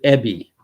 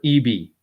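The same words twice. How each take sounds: First: "Eby" said as "EBB-ee"; short-E pronunciation. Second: "Eby" said as "EE-bee"; long-E pronunciation. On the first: Host guessing at the premier's name, "Eby" pronounced "EBB-ee". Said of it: "or Eby". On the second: Host correcting his guess at the premier's name, "Eby" pronounced "EE-bee". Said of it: "E B Y". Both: Shown as a demonstration.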